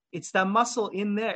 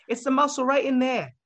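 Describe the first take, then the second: First: Said in the usual way. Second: Higher-pitched Boston accent impression. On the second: Fan retelling a drummer's explanation, imitated Boston accent. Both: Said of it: "his, like, little Boston accent".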